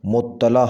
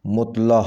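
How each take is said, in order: First: مطلع with doubled t, "muttala"; correct pronunciation. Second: مطلع in two syllables, "mut-la"; mispronounced. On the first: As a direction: say مطلع as mut-ta-la. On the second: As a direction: run t into l in مطلع. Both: Shown as a demonstration. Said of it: "صحیح لفظ ہے".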